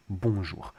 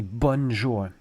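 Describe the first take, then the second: First: "Bonjour" with nasal vowel, no N; French nasal vowel. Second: "bonjour" with a hard N, English style; anglicised "bonjour" with an audible N; sounded N. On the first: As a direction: let the first vowel of "Bonjour" go nasal, N silent. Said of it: "that's not how we say it". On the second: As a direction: pronounce the N in "bonjour" as bon-joor. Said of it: "So we don't say bonjour". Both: Shown as a demonstration.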